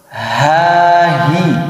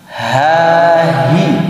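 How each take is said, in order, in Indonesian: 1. Bunyi h ditahan dulu sebelum dilepaskan. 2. Bunyi h ditahan dulu sebelum dilepaskan.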